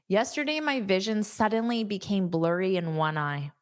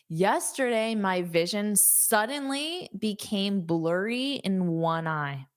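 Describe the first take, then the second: First: The sentence is said at a fast pace. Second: The sentence is said at a slower pace.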